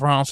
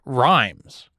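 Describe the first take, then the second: First: It is said in the French way, unlike 'rhymes'. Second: It is said like the English word 'rhymes'. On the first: The speaker calls it right. "one of the weirder bits of French pronunciation" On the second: The speaker calls it wrong. "I had always pronounced it Rhymes until I learned better"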